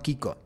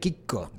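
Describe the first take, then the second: First: The middle k sound is short. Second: The middle k sound is held long. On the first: This is the Spanish form, like the TV character. "no Kiko. Sí, claro. Como el del Chavo del Ocho" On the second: This is the Italian form of the nickname. "Kiko con doble C"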